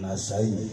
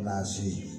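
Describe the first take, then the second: First: The name is said slowly with full 'ai' sound. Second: The name is said quickly, reduced to 'nasi'. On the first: The speaker calls it right. "Saya harus menyebutnya dengan baik" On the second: The speaker calls it wrong. "Kalau terlalu cepat jadi nasi"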